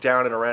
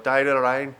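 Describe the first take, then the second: First: It is said in the speaker's own accent. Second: It is said in a Northern Irish accent.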